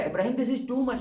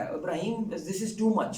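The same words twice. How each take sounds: First: "too much" thrown up high in exclamation; exasperated exclamation; exclaiming. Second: Said in the usual way. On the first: Retold or imitated. God's words quoted again, heightened.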